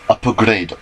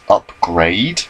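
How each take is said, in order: First: The word has three syllables, with an added vowel. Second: The word has two syllables, with no added vowel. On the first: "it's pronounced upper grade. It's a Japanese pronunciation" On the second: "It says upgrade when you read it"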